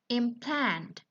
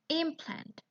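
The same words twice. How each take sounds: First: The stress is on the second syllable. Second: The stress is on the first syllable. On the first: It is used as a verb. "For the verb, we have the stress in a second syllable" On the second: It is used as a noun. "While for noun"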